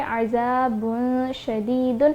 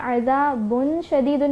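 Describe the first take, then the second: First: The n sound is hidden and nasalized. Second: The n sound is pronounced clearly. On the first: The speaker calls it right. "बल्कि पढ़ेंगे अज़ाबुन शदीदुन" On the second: The speaker calls it wrong. "अज़ाबुन शदीदुन नहीं पढ़ेंगे"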